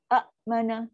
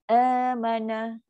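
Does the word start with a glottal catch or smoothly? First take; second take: glottal catch; smoothly. First: The opening vowel is broken by a glottal catch. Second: The opening vowel flows smoothly without a catch. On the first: "kan bunyi macam sangkut" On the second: "kan lembut"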